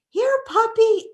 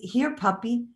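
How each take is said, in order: First: It is said in a very high voice. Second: It is said in a normal voice.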